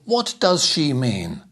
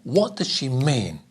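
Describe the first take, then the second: First: All four words get equal stress. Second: First and last words strong, middle words weak. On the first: The speaker calls it wrong. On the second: The speaker calls it right.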